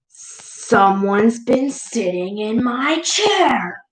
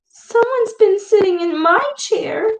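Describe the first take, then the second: First: It is said in a deep, loud roar. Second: It is said in a high, squeaky voice.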